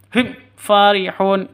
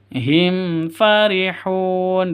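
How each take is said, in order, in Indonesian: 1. Bunyi m dihentikan secara tiba-tiba. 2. Bunyi m mengalir lancar ke kata berikutnya. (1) "itu salah" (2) "Yang yang betul"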